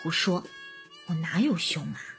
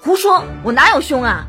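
First: It is said softly and affectionately. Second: It is shouted loudly with a raised pitch.

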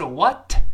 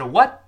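First: The final t is fully released. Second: The final t is held and not released. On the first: The speaker calls it wrong. "不是what" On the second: The speaker calls it right. "What 最后那个t 一定失去爆破了，读快了之后不是what 而是what"

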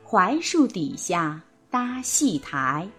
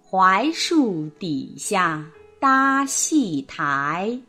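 First: It is read smoothly at a connected pace. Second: It is read slowly, word by word.

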